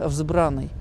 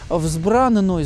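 First: The n sound is short, single. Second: The n sound is held long, doubled. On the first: The speaker calls it wrong. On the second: The speaker calls it right.

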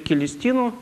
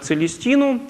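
First: The name begins with a k sound. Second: The name begins with a ts sound. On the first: This is the Greek-style pronunciation. "на греческий манер" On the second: This is the Latin-style pronunciation. "на латинский"

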